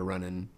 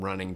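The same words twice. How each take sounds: First: The final g sound is dropped. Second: The final g sound is kept. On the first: "to running" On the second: "we change things from running"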